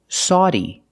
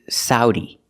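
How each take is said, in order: First: The first vowel sounds like aw in automobile. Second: The first vowel sounds like ow in cow. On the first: "using the aw sound like in automobile" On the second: "using the sound ow like cow and how"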